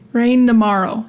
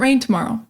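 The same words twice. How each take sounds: First: The T in tomorrow is dropped entirely. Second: The T in tomorrow is clearly pronounced. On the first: "we don't say tomorrow. We just say rain tomorrow" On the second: "Sometimes we say"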